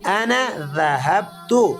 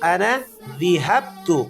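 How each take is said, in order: First: The verb's first vowel is an a sound. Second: The verb's first vowel is an i sound. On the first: The speaker calls it right. "ज़ाल पर जबर है, जेर नहीं है" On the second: The speaker calls it wrong. "जेर के साथ आप पढ़ेंगे तो ये गलत होगा"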